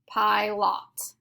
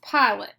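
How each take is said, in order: First: The second syllable has a full short o vowel. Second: The second syllable has a reduced schwa vowel. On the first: The speaker calls it wrong. "Our second syllable says lot" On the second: The speaker calls it right. "It is pronounced pilot. So we need to mark our O with the schwa sound"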